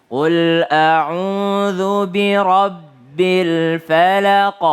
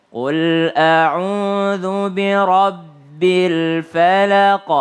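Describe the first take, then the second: The two takes are said the same way.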